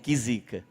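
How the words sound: It is said in a delighted, admiring tone. Something is great, a blessing. "Isso é bênção que você falou"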